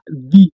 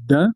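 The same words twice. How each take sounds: First: The vowel is a long 'ee' sound. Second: The vowel is a short, weak 'uh' sound. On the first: This is the form used before a vowel sound. "on le prononcera the" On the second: This is the usual form, not used before a vowel sound. "plutôt que de le prononcer the"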